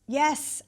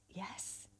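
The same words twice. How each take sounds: First: Said in the usual way. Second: Barely audible whisper; whispered yes. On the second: Acted. Woman answering the gorgeous stranger at the bus stop, whispering. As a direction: let it out as a tiny, tentative whisper.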